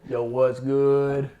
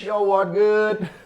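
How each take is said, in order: First: It is said at a lower pitch. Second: It is said at a higher pitch.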